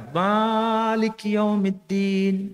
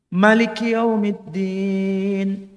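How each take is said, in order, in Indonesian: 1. Vokal pertama pada Maliki panjang. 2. Vokal pertama pada Maliki pendek.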